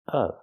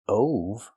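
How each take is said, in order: First: The vowel is a short 'uh' sound. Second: The vowel is a long 'o' sound. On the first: The speaker calls it right. "the short uh sound like cup and up" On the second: The speaker calls it wrong. "Not o like no and go. Not ove"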